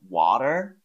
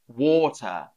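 First: It is said in an American accent. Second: It is said in a British accent.

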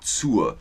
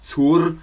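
First: The final R is nearly silent. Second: The final R is clearly pronounced. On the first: The speaker calls it right. "Das R ist ein bisschen stumm" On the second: The speaker calls it wrong. "Man sagt nicht zur"

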